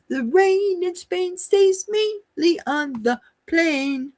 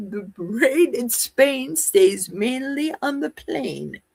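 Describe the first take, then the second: First: High, slow put-on British accent; mock British accent. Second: Said in the usual way. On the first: Shown as a demonstration. Elocution drill in a mock British accent. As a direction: recite it in a hammed-up British accent. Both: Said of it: "Do I need a British accent?".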